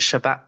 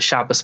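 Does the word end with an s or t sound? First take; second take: t; s. First: The word ends with a t sound. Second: The word ends with an s sound. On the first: "the taf" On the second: "the saf"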